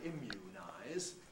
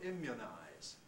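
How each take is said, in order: First: The second vowel is a long oo. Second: The second vowel is lax, like good. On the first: "We don't say immunize. Sounds very strange" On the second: "much like the vowel of good for some people"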